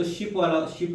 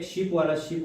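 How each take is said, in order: First: "शिप" with a short i both times; short vowel. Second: "शिप" said as sheep, with a long ee; long vowel. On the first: Teacher sorting ship from sheep, short vowel in "शिप". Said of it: "इसमें short vowel है". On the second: Teacher sorting sheep from ship, long ee in "शिप". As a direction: lengthen the i in "शिप" to ee both times. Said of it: "long vowel है". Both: Shown as a demonstration.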